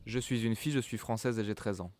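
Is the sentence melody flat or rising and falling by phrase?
flat. Even and flat, without rises or breaks between groups. The speaker calls it wrong. "I don't speak like this. It's horrible. I sound like a robot"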